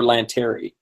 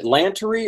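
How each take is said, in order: First: "Lanteri" stressed on the second syllable; Lanteri pronunciation. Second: "Lantery" stressed at the front, middle vowel swallowed; Lantery pronunciation. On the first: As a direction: say "Lanteri" with a full "tair" in the middle, lan-TAIR-ee. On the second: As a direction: say "Lantery" with a reduced middle syllable, LAN-tuh-ree. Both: Shown as a demonstration. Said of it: "is it Lantery or Lanteri".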